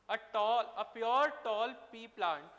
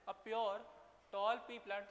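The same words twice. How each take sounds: First: Each word spaced out slowly and loudly for copying; slow, loud dictating voice; slow dictation. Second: Said in the usual way. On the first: Shown as a demonstration. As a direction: dictate it slowly so they can write. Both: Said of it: "question लिख लो ये वाला".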